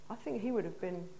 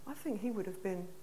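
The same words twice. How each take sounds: The two takes are said the same way.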